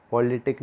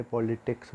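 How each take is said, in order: First: पॉलिटिक said without the final s, the word cut off at the k; पॉलिटिक, deliberately dropping the s sound; wrong form. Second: पॉलिटिक्स said with a clear final s; पॉलिटिक्स, landing the ending ks; correct form. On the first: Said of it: "पॉलिटिक नहीं बोलते". (पॉलिटिक बिना स के, गलत रूप में) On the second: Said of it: "पॉलिटिक्स बोलते हैं". (पॉलिटिक्स, अंत में साफ़ क्स के साथ) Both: Shown as a demonstration.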